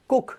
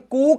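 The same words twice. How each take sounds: First: The vowel is short and quick. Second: The vowel is long and drawn out. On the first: The speaker calls it right. "तेजी से छोटे यू की मात्रा लगानी है" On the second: The speaker calls it wrong. "अब इसे कुक नहीं पढ़ना है"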